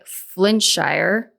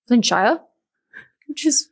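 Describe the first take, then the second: First: Said in the usual way. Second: Amateur English accent on Flintshire; attempted English accent. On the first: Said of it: "definitely not how you say that". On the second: Shown as a demonstration. Podcast host retries an English town name, attempted English accent. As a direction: have a shaky go at an English accent. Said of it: "with an English accent".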